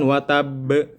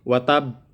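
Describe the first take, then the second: First: The final b is released with a bounce. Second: The final b is stopped without a bounce. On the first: The speaker calls it right. "harusnya kan watab" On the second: The speaker calls it wrong. "masih watab, tidak dipantulkan"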